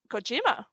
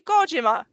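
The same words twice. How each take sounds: First: The name is said with an English pronunciation. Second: The name is said with a Japanese pronunciation. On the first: "we we always say Kojima" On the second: "gonna have to call all the names by their Japanese pronunciation now"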